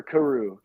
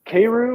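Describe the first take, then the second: First: "Karu" said kuh-ROO; second pronunciation option. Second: "Karu" said KAY-roo; first pronunciation option. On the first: Host offering the other pronunciation, "Karu" as kuh-ROO. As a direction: say "Karu" with a short, weak first vowel, kuh-ROO. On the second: Host asking his guest how it's pronounced, "Karu" as KAY-roo. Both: Shown as a demonstration. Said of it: "is it, is it pronounced".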